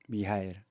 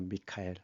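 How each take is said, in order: First: The middle consonant is an h sound. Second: The middle consonant is a k sound. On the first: "지역에 따라서 발음이 다르죠" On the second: "미카엘이라고 하는 거죠"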